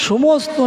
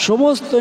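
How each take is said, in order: No difference in how they are said.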